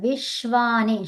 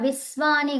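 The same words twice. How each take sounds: First: The middle consonant is an sh sound. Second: The middle consonant is a plain s sound. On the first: The speaker calls it right. "విశ్వాని ష్ ష్ అని రావాలి" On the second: The speaker calls it wrong. "ఇక్కడ విశ్వాని గాదు"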